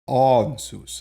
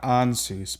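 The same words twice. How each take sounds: First: The first vowel is a back A. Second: The first vowel is a front A. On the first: The speaker calls it right. "It's that back A" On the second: The speaker calls it wrong. "Not Ansus"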